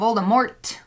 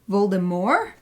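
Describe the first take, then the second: First: The final T sound is clearly pronounced. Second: The final T sound is silent. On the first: "with a T, like an English pronunciation" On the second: "like a French pronunciation"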